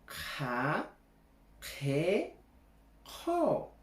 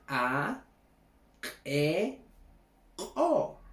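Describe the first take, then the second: First: The consonant is followed by a puff of breath. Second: The consonant has a sharp glottal catch. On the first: "al modo aspirado acompañado con una H" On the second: "el modo glotalizado"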